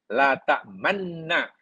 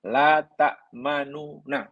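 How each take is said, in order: First: The two n sounds merge into one doubled n. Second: A vowel separates the two n sounds. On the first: It states a prohibition. "Nun pertama mati, idham pada nun kedua" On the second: It states a negation. "asal memang la ta'manuna"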